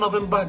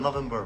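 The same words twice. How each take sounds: First: It is pronounced with a British accent. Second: It is pronounced with a North American accent. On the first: "Canada কেউ নভেম্বর ডিসেম্বর বলে না" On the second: "নভেম্বর বলে"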